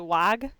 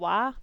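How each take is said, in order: First: The word ends with an audible g sound. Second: The word ends openly with no final g. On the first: "I've heard people say Wag" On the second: "I always say Eternal Wa"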